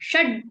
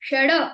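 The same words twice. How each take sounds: First: The final d is left incomplete, with no vowel. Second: The final d is followed by a vowel. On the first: The speaker calls it right. "वो sound incomplete आना चाहिए" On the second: The speaker calls it wrong. "ऐसा नहीं बोला मैंने"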